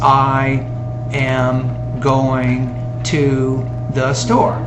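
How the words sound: There is a pause after every word. The speaker calls it wrong. "You're pausing after every word"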